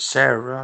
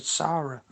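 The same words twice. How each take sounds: First: "Sarah" as SAIR-uh; "Sarah" starting like "SAIR", not "SAH"; name as shown. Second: "Sarah" as SAH-ruh; "Sarah" rhyming with Lara; name as first said. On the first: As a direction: say "Sarah" with an "air" first vowel. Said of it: "And this is Sarah". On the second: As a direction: say "Sarah" with an open "ah" first vowel. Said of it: "I didn't say sorry". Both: Shown as a demonstration.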